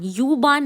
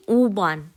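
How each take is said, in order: First: "यूबान" with an English yoo sound; the wrong way, "यूबान" with yoo. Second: "ऊबान" with a pure round oo, no y; the right way, "ऊबान" with oo; correct German U. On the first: (गलत उच्चारण, "यूबान" में यू) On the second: (सही उच्चारण, "ऊबान" में शुद्ध ऊ) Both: Shown as a demonstration. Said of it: "यूबान नहीं".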